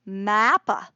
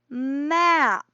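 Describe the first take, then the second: First: Extra vowels follow the consonants, ending in a vowel. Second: Pure consonant sounds are used, ending in a consonant. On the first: The speaker calls it wrong. "some of us grew up learning that M was ma or R is ra, but that doesn't work so well" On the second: The speaker calls it right. "This is a map"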